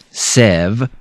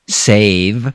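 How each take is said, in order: First: The vowel is a short E sound. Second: The vowel is a long A sound. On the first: The speaker calls it wrong. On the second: The speaker calls it right.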